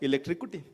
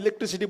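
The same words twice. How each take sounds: First: The word is pronounced with a distorted sound. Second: The word is pronounced in the standard way. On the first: The speaker calls it wrong. "वो कहता है इलेक्ट्रिसिटी" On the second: The speaker calls it right. "इसको मैं सिखा रहा हूं इलेक्ट्रिसिटी बोलो"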